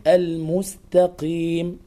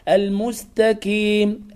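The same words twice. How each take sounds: First: "المستقيم" slowly, with back-of-throat q; true qaf. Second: "المستقيم" slowly, with k for q; qaf as kaf. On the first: Teacher gives correct form, real qaf in "المستقيم". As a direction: keep a clear q in "المستقيم". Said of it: "القاف في أقل درجة". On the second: Teacher shows what to avoid, k in "المستقيم". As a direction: front the q of "المستقيم" into k. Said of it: "القاف كافا". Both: Shown as a demonstration.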